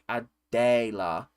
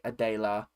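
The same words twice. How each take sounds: First: The second-syllable vowel is long, like 'day'. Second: The second-syllable vowel is short, like 'Del'. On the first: "the accented E is basically long" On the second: "most of my friends just say Adela"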